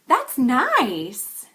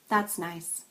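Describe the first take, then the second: First: Overdone, with very wide pitch and stress. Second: Flat pitch with little stress on nice. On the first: "In the exaggerated version, I just overdo this a little bit" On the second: "And the understated version"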